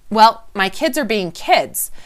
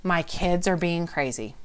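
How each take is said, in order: First: Put-on slow, louder, with "kids" leaned on at the end; reframing the kids' behaviour calmly, slow stress on "kids". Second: Said in the usual way. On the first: Shown as a demonstration. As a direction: drag it out and land hard on "kids". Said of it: "Emotional wellness is backing up and saying".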